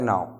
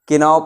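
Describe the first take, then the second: First: The word starts directly with an n sound. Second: The word starts with a clear k sound. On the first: The speaker calls it right. "के की आवाज़ नहीं निकलेगी" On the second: The speaker calls it wrong. "जो के की आवाज़ होती है वो निकालते हैं"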